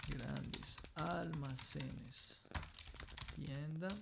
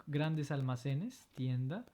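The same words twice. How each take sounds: First: Grandes almacenes said slowly and softer; slow quiet teacher echo; slow soft model reading. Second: Said in the usual way. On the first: Shown as a demonstration. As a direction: drag out each syllable for dictation.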